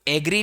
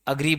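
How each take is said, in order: First: The word begins with an 'eh' vowel. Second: The word begins with a short 'uh' vowel. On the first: The speaker calls it wrong. "इसको एग्री नहीं बोलते हैं" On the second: The speaker calls it right. "अग्री बोलते हैं"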